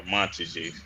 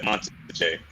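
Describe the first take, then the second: First: "Montage" said MON-ti-zhee, stress on the first; "Montage" as mon-ti-zhee ending in ee; Montage three syllables. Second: "Montage" said mon-ZHAY, stress on the end; "Montage" as mon-tzhay with a long final ay; Montage French style. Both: Shown as a demonstration. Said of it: "however you pronounce that".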